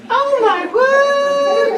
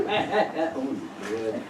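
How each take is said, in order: First: High, slow mock shriek of shock; shocked lady. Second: Low, soft, breathless mock gasp of shock; gasping blonde lady. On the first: Mimicking a startled lady in the crowd, high slow shriek. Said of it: "The lady's like". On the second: Mimicking the blonde lady in the crowd, soft low gasps. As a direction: gasp it out, almost fainting. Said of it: "she's like".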